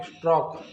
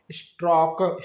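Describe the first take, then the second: First: Said in the usual way. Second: स्ट्रॉक drawn out, final क released as "kuh"; sounded out. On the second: Shown as a demonstration. Teacher sounding out स्ट्रॉक for learners, drawn out with released क. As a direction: stretch स्ट्रॉक and add a short vowel after क. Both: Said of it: "बनता है दोस्तों हमारा क्या".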